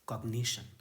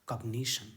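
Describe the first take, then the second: No difference in how they are said.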